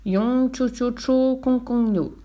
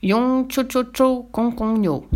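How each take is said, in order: First: Sorcerer's high, drawn-out mock Chinese reply; same nonsense phrase, intoned slightly differently; slow, high nonsense Chinese answer; slightly different intonation. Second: High, drawn-out nonsense Chinese chant; giant's mock Chinese. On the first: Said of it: "sur un ton légèrement différent". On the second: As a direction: stretch each syllable, high and sustained. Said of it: "le géant lui dit". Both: A narrator's reading.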